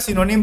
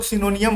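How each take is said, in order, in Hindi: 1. शब्द का अंत छोटी 'nim' ध्वनि से होता है। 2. शब्द का अंत लंबी 'nium' ध्वनि से होता है। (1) "मैं सिनोनिम बोलता हूँ" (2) "कुछ लोग सिनोनियम बोलते हैं"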